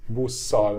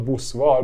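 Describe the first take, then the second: First: Busszal with a long held double s, no v sound; assimilated busszal. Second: Buszval said with a clear v after the s; wrong form. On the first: Teacher showing the double s in busszal. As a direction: stretch the ss in busszal. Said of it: "it assimilates". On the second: Teacher showing the wrong buszval. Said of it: "not buszval". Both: Shown as a demonstration.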